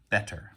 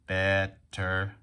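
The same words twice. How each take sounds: First: Said in the usual way. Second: "Better" split into two even, separated beats; robot syllables. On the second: Shown as a demonstration. Teacher counting syllables in "Better", robot-like. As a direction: say "Better" in robot style, bet, pause, ter. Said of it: "We can tap and talk like a robot".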